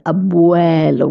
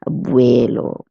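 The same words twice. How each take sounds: First: The vowels are said with a wide-open mouth. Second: The vowels are said with a narrower mouth. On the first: The speaker calls it right. "We pronounce it nice and open mouth" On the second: The speaker calls it wrong. "most people would have the tendency of pronouncing this word as abuelo"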